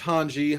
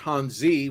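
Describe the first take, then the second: First: The name is said without a Z sound. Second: The name is said with a Z sound.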